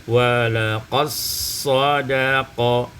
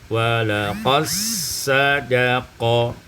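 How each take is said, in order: No difference in how they are said.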